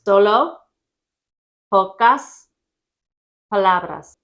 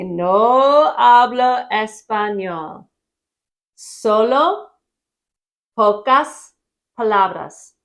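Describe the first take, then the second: First: Louder, with long pauses between "Solo", "pocas", "palabras"; slow repeat. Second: Slow and louder, each word of "No hablo español. Solo pocas palabras" separated; slow teaching demo. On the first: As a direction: give each of "Solo pocas palabras" its own beat. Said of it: "Only a few words". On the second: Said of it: "And you're gonna say". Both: Shown as a demonstration.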